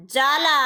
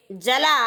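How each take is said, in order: First: जाला with a long, held aa after जा; teacher's careful dictation of जाला, first vowel drawn out. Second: जला with a quick, short a after ज; teacher's careful dictation of जला, first vowel kept brief. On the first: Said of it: "आ के उच्चारण में अधिक समय लगता है". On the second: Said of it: "ए के उच्चारण में कम समय लगता है". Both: Shown as a demonstration.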